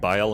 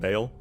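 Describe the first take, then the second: First: The name is said with a more foreign vowel. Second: The name is said with an English 'ay' vowel. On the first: An attempt at the original pronunciation. "perfect pronunciation" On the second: A simplified, easier pronunciation. "start pronouncing it as Bale because that is easier for me"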